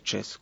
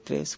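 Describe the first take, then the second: First: The tr cluster is merged into a ch-like sound. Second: The tr cluster is pronounced as a clear t-r. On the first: "sino que se dice" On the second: "ya no se dice"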